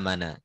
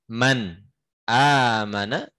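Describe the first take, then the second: First: The n links straight into the vowel. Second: A glottal stop separates 'man' and 'amana'. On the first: "Itu namanya nakal"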